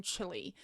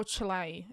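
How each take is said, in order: First: "Chile" pronounced CHILL-ee; Chile as "chilly". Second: "Chile" pronounced CHILL-ay; Chile as "chee-lay". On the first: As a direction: say "Chile" ending in an ee sound. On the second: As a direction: say "Chile" ending in an ay sound. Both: Shown as a demonstration. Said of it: "Is it Chile or Chile".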